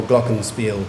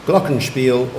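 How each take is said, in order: First: Glockenspiel said GLOCK-en-speel; second pronunciation. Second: Glockenspiel said GLOCK-en-shpeel; first pronunciation. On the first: Pronouncer repeats the other option for the speller, glockenspiel as GLOCK-en-speel. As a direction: say glockenspiel with a simple "s" before the "p". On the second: Pronouncer repeats the first option for the speller, Glockenspiel as GLOCK-en-shpeel. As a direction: say Glockenspiel with "sh" before the "p". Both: Shown as a demonstration. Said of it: "You have two pronunciations".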